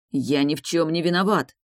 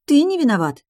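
First: Said in the usual way. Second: High, loud squeal of outrage; indignant shriek. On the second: A narrator's reading. Enina mocking his claim of innocence, indignant shriek. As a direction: throw it back as a shriek. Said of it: "взвизгнула она".

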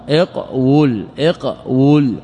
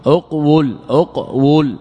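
First: اقول said iq-wul, starting on i, split after q; original form, i-onset. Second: اقول said uq-wul, starting on u, split after q; original form, u-onset. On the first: Teacher showing the verb pattern, اقول as iq-wul. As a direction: begin اقول with i, stop on q, then wul. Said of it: "لأنه على وزن افعل". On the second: Teacher showing the alternative pattern, اقول as uq-wul. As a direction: begin اقول with u, stop on q, then wul. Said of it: "أو افعل أو افعل". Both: Shown as a demonstration.

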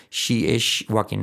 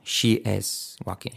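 First: "She is walking" with IS slurred to 'ish'; slow, mistaken 'she ish walking'; faulty sh for s. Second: "She is walking" slowly, IS ending in a crisp s; slow careful SH in SHE, plain s in IS; clean s in is. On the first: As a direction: say IS wrongly with a hushing sh ending. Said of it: "nos sale a veces". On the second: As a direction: separate the sh of SHE from the s of IS. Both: Shown as a demonstration.

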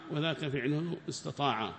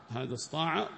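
First: "استطاع" in full as istataa'a; pronounced with the ta. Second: "استطاع" shortened to istaa'a; pronounced without the ta. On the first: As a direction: sound both ت and ط in "استطاع". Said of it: "الذي هو أثبتت التاء معه". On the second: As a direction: say "استطاع" as اسطاع, no ت. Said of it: "الطاء من غير التاء". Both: Shown as a demonstration.

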